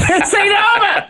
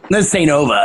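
First: Mock threat in a very high, silly voice; high-pitched mimicry. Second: Low-key imitated tough-guy threat; lightly voiced old-timey New York cartoon character; Charles Bronson. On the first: Cohost replaying the cartoon threat after laughing, high squeal. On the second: Cartoon kid threatening after refused cookie, low Charles Bronson voice. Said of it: "variation of the Charles Bronson voice".

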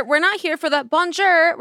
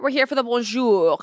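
First: Bonjour said the American way as "bon-jer"; lazy English bonjour; anglicized bonjour. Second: Bonjour said the French way as "bon-zhoor". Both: Shown as a demonstration.

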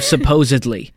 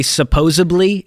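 First: "supposedly" with a clear d before -ly; correct supposedly. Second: "supposedly" said wrongly as supposably, slowly; mispronounced supposedly. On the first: Host giving the proper word, "supposedly" with a d, not b. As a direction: say "supposedly" properly, sup-pose-ed-ly. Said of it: "instead of "supposedly". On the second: Host mimicking people who get it wrong, "supposedly" as supposably. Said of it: "people who say supposedly". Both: Shown as a demonstration.

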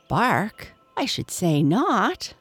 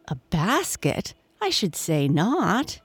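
First: Higher, with a mild barking laugh in the voice. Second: A mild, lightly voiced exclamation of scorn; exclaiming. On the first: Don the dog answers Toto with a light barking laugh. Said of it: "laughed Don in a barking manner". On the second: Toto the beaver exclaims to Don, mildly scoffing. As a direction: Toto scoffs at the idea, a touch indignant. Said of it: "exclaimed Toto". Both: A narrator's reading.

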